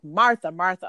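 It sounds scolding and exasperated.

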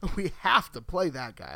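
It is said in an eager, excited tone. He is too good to keep off the field. The speaker calls it right.

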